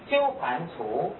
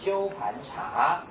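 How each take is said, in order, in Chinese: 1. 最后一个字读 tu。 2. 最后一个字读 cha。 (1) "在一般都念鸠盘足" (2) "你可以念成鸠盘茶"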